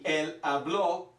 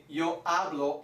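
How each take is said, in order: First: "habló" stressed on the final ó; past-tense "habló", slow, weight on BLÓ; stress on last syllable. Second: "hablo" stressed on HA; present-tense "hablo", weight on the first syllable. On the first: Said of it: "that changes the intonation or pronunciation". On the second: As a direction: say "hablo" as HA-blo, last o unstressed. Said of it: "is the accent". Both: Shown as a demonstration.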